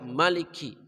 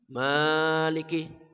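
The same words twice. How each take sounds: First: The first vowel is kept short. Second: The first vowel is held long. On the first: It means the king. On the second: It means the one who owns and rules.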